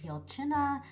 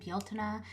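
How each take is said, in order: First: The middle consonant sounds like a ch. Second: The middle consonant sounds like a t. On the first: "it can also be more like Bealchina" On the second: "I pronounce it Bealtaine"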